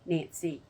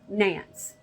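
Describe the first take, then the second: First: The final E is sounded, two syllables. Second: The final E is silent, one syllable. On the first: "unless they pronounce the E as E" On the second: "not Nancy, Nance"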